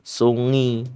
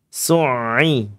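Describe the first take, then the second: First: The middle sound flows softly like an ng sound. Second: The middle sound is between stopped and flowing. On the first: The speaker calls it wrong. "kalau dibacanya rokhwah ya salah juga. Sungi. Ada yang baca sungi" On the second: The speaker calls it right. "Ini pertengahan"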